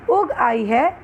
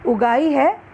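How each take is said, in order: First: उग set apart from आई; pause between words. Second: उगाई as one unbroken word; words run together. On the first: Teacher contrasts two readings, separating उग from आई. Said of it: "हल्का सा विराम लाना". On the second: Teacher contrasts two readings, saying उगाई in one flow. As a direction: glide through उगाई with no break after the first syllable. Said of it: "एक प्रवाह में एक साथ पढ़ना". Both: Shown as a demonstration.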